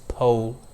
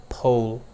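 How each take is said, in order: First: It is said with an American accent. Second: The same.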